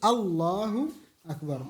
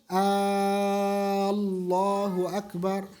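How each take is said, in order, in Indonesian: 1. Vokal pembuka pada "Allahu" dibaca pendek. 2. Vokal pembuka pada "Allahu" dibaca panjang. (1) "Harus Allahu akbar" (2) "hamzahnya panjang gitu, mempanjangkan suara"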